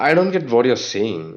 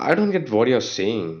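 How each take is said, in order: No difference in how they are said.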